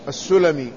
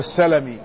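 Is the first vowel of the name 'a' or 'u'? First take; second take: u; a. First: The first vowel is u, as in Sulami. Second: The first vowel is a, as in Salami. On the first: The name refers to the tribe of Banu Sulaym. "وفي بني سليم بضمها" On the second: The name refers to a lineage among the Ansar. "في الأنصار بفتح السين"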